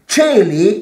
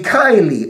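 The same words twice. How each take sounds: First: It is said in Italian-style church Latin pronunciation. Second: It is said in classical Latin pronunciation. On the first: This is how the Church says it today. "is what we say now" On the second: This is how it was said in ancient times. "in the Latin of Cicero, it would be"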